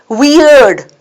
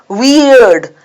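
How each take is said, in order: Both takes have the same delivery.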